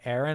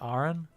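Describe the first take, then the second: First: It is said with an American pronunciation. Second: It is said with a British pronunciation. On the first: "a lot of Americans say Aaron" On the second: "instead of Aaron"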